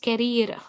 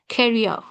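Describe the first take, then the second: First: The vowel is said without the ear glide. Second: The vowel glides like the ear sound. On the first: The speaker calls it wrong. "We don't pronounce these words as" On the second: The speaker calls it right. "it's like"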